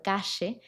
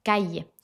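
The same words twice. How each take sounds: First: "calle" with the LL as a sh sound, like "cashe"; yeísmo pronunciation. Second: "calle" with the LL as a y sound, like "caye". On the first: Teacher demonstrating one Spanish variant of the LL, sh sound. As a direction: say "calle" with a Rioplatense sh. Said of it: "existe el yeísmo". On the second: Teacher demonstrating another Spanish variant of the LL, y sound. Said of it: "lo pronuncian como una I". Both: Shown as a demonstration.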